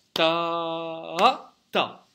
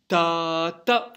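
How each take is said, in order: First: Loud long "ta" pulsed up on beat two, then short "ta"; two-beat dotted note. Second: Loud "Ta" held one beat on a level pitch, then short "ta"; one-beat syncopation. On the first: Teacher contrasts two rhythms, two-beat dotted demo. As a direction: stretch the first "ta" over two beats, lifting midway. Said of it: "celui-là dure deux temps". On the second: Teacher contrasts two rhythms, one-beat saute demo. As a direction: hold "Ta" evenly without a second pulse, then "ta". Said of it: "celui-ci dure un temps". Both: Shown as a demonstration.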